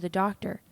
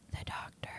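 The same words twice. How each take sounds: First: It is said in a normal speaking voice. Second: It is whispered quietly, chin down.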